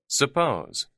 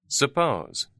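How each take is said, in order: The two takes are said the same way.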